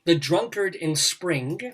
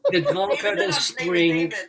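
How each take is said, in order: First: It is read in the speaker's ordinary accent. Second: It is read in a put-on German accent.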